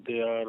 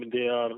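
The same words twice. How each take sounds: The two takes are said the same way.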